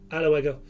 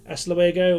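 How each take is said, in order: First: It is said Andalusian-style, with endings cut off. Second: It is said in standard Spanish, fully pronounced.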